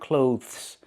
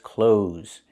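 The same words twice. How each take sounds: First: A 'th' sound is pronounced before the final s. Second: No 'th' sound; it sounds like 'close'. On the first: The speaker calls it wrong. "Do not pronounce the T H. It's not clothes" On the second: The speaker calls it right. "it's clothes. It's pronounced the same as the word close"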